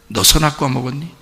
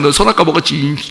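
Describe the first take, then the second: First: It is said softly, like a sad question. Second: It is said harshly, like an angry accusation.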